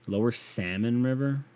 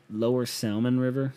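First: Said in the usual way. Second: "Salmon" said as sal-mon with the L spoken; sounded L in salmon. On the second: Shown as a demonstration. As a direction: pronounce the L in "Salmon". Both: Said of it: "What if I said it like that?".

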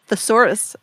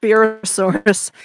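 First: Said in the usual way. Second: Thesaurus said slowly and carefully, every syllable drawn out. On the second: Shown as a demonstration. Guest echoing the host's word, drawn out slowly. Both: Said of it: "Is that what we're going for?".

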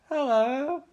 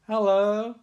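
First: Put-on much higher, rising girly hello; mock girl hello. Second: Slightly higher, rising greeting; an awkward dad's hello. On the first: Nancy answers her dad, high girly hello. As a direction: chirp it back like a teen girl. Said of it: "She's like". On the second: Retold or imitated. John Saxon greets Nancy, awkward rising hello. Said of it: "He's sort of like".

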